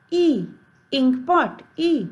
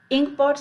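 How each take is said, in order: First: "E" as the first sound of "ink pot", said higher; phonics I sound. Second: Said in the usual way. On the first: Shown as a demonstration. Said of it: "we'll pronounce it E". ("ink pot" की पहली ध्वनि "E") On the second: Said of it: "Ink pot starts with I".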